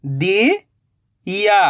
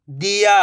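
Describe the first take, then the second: First: "दिया" slowly split, rising "di", long pause, "ya"; split into syllables. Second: "दिया" joined in one go, no gap; blended word. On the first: Teacher building the word for learners, "दिया" in slow pieces. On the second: Teacher giving learners the result, "दिया" blended. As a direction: say "दिया" whole, short i. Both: Shown as a demonstration. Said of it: "तो मिलके बन जाएगा".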